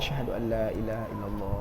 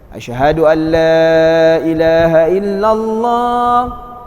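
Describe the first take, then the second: First: It is said quietly, in a low voice. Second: It is said loudly, with a raised voice.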